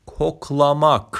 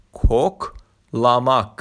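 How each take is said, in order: First: Said in the usual way. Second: کوکلاماک drawn out slowly, falling; slow Turkish word. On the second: Shown as a demonstration. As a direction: model کوکلاماک slowly for learners. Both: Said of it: "کوکلاماک یعنی بو کردن".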